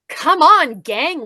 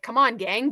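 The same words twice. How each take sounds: First: It is said in an overly cheerful, bouncy voice. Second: It is said in a plain, less cheerful voice. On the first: The speaker calls it wrong. "a little too chipper" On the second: The speaker calls it right. "but not like that"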